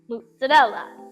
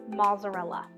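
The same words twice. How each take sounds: First: It is said the Italian way. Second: It is said the non-Italian, American way.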